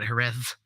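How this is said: The word ends with a th sound. A speaker from Spain would say it this way. "in Spain they call it"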